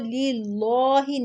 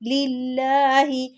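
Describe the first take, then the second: First: The L of the word is pronounced heavy. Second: The L of the word is pronounced thin. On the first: The speaker calls it wrong. "इसको लिल्लाहि नहीं कहेंगे" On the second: The speaker calls it right. "लाम को बारीक पढ़ना है"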